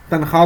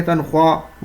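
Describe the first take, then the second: First: تنخواہ said as "tankha", with no w sound; silent waw. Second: تنخواہ said as "tankhwa", with the w heard; sounded waw. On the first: Teacher giving the spoken form, تنخواہ said "tankha" with silent waw. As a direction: drop the waw in تنخواہ: "tan-khaa". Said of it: "تنخواہ بولتے ہیں". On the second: Teacher showing the form not spoken, تنخواہ with audible w, "tankhwa". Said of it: "واو کا جو تلفظ ہے وہ یہاں نہیں ہو پا رہا". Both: Shown as a demonstration.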